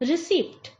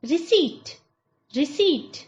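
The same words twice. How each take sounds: First: Receipt as ri-sipt; receipt ending in pt; wrong receipt with p. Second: Receipt as ri-seet; receipt ending in plain t; correct receipt, silent p. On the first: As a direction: mispronounce receipt, sounding the p. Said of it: "that is wrong". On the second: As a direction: model receipt without p. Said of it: "Right pronunciation is". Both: Shown as a demonstration.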